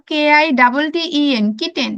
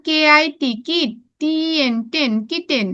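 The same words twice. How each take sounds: First: "কে আই double টি ই এন" in one unbroken run, then "kitten"; all at once. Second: "কে আই টি" then "কিট", "টি এন" then "টেন", finally "kitten"; split in two parts. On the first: Teacher showing pupils the alternative, spelling "kitten" all at once. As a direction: spell straight through with "double টি", no syllable break. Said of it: "কেউ যদি একবারে পড়ো". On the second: Teacher recapping the easy way for pupils, "kitten" split in two. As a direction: spell each syllable and say it before joining "kitten". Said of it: "আমরা ভাগ করে পড়বো". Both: Shown as a demonstration.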